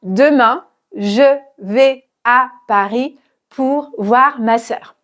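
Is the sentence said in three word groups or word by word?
word by word. Each word is said separately, one by one. The speaker calls it wrong. "je ne dis pas"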